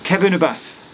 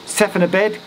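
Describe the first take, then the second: First: It starts with K and ends in TH. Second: It starts with S and ends in a D. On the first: This is how locals say it. The speaker calls it right. "but it's actually" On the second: This is how it looks when read as English. The speaker calls it wrong. "if I was to read it with my silly English brain"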